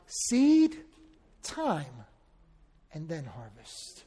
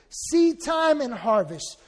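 First: Seed and time are separated by pauses. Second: Seed time is said as one phrase. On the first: Time passes between the seed and the harvest. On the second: Seed time is the season for sowing.

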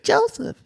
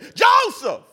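First: The name is said quietly, without force. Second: The name is shouted loudly.

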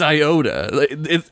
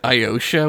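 First: The middle consonant is a 't' sound. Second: The middle consonant is a 'sh' sound. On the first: The speaker calls it right. "But it's Iota. It's written Iota" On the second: The speaker calls it wrong. "They pronounce it Iosha, which drives me crazy"

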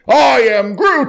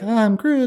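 First: The voice sounds angry and forceful. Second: The voice sounds frightened and timid. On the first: The character is mad. "if he's mad" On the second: The character is scared. "if he's scared"

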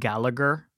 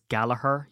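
First: The middle g sound is pronounced. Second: The middle g sound is left out. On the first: The speaker calls it wrong. "but it's not" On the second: The speaker calls it right. "You don't pronounce the G"

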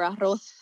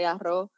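First: The final s sound is pronounced. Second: The final s sound is dropped.

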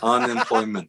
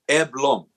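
First: The word is said in full, all syllables. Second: The word is squeezed into two short syllables. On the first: "So the word is unemployment" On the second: "the way he pronounces it is Eblom"

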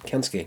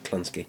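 First: There is no L sound after the K. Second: An L sound follows the K. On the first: The speaker calls it right. "Kinski, not Kinski" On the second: The speaker calls it wrong. "Why did I put an L on there?"

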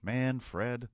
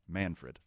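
First: The name is split into two separate words. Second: The name is said smoothly as one word.

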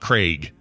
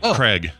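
First: The vowel is long, like in ache. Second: The vowel is short, like in egg. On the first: The speaker calls it wrong. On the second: The speaker calls it right.

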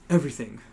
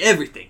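First: It is said without a regional accent. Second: It is said in a New Jersey accent.

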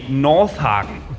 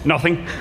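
First: The name is said at a normal, clear pace. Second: The name is said quickly, running its sounds together.

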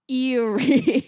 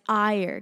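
First: The word sounds like 'eerie', two syllables. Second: The word sounds like 'ire', one syllable. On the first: The speaker calls it wrong. "to a stupid American, it would be Erie" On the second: The speaker calls it right. "say it right. It's Ire because it's spelled E-Y-R-E"

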